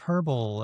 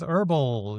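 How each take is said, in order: First: The word starts with an h sound. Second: The word starts without an h sound. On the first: This is the form used elsewhere. "instead of herbal" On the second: This is the American form. "American English with herbal"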